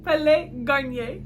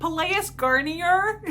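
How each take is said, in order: First: "Palais Garnier" with silent S and R; French pronunciation. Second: "Pelléas Garnier" with S and R sounded, loud and rising; American mispronunciation. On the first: Student copying her French friend's recording, French pronunciation. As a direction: slowly copy "Palais Garnier" as pa-LAY gar-NYAY. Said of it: "with a French accent". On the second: Reader mocking her own earlier attempt, American mispronunciation. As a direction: say "Pelléas Garnier" slowly as puh-LAY-us GAR-nee-er. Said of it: "in an American English accent". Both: Shown as a demonstration.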